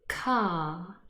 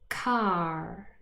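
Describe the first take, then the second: First: The R after the vowel is silent. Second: The R after the vowel is pronounced. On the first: "the non-rhotic pronunciation" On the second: "the rhotic pronunciation"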